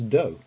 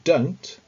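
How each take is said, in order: First: The word is cut short with no t sound. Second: The word ends with a clear t sound.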